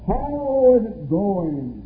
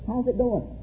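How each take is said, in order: First: It is said in a solemn preaching voice. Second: It is said in a casual everyday voice. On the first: The person is acting like a preacher. "just take a whole new tone of voice on them" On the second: The person is chatting normally. "they talk one way"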